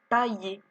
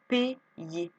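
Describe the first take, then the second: First: The first syllable sounds like 'pa'. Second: The first syllable sounds like 'pay'. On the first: The speaker calls it wrong. "ça ne fait pas paillé" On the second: The speaker calls it right. "ça fait P, yé"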